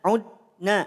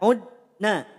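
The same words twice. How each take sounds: No difference in how they are said.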